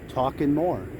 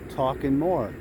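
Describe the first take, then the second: No difference in how they are said.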